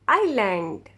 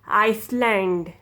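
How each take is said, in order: First: The S sound is silent in the word. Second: The S sound is pronounced in the word. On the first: The speaker calls it right. "You don't pronounce S. S will be silent" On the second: The speaker calls it wrong. "you don't ever say Iceland. You're wrong"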